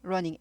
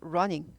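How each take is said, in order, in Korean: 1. 중간 n 소리는 하나로 납니다. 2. 중간 n 소리는 겹쳐서 납니다. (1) "두 개일 때 발음 하나만 납니다" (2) "running 아니고"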